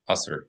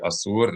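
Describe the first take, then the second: First: The word is said in an Ashkenazi way. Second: The word is said in a Sephardic or Israeli way.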